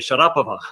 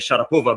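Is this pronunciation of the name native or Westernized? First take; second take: native; Westernized. First: The name is said in its original native way. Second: The name is said in a Westernized way. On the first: This is how the name properly should be said. "should be Sharapova" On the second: It sounds more exotic and Western. "she wants to be Sharapova because they think it sounds more exotic and more Western"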